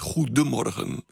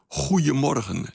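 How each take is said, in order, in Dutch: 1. Het midden wordt volledig uitgesproken als 'goede'. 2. Het midden wordt gereduceerd tot een informele 'goeie'. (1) "niet goedemorgen" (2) "Ze zegt goeiemorgen"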